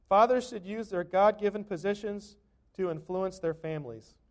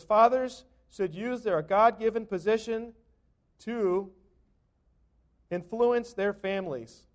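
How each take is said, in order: First: Said in the usual way. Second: Slow emphatic reading. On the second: Shown as a demonstration. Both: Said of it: "It says".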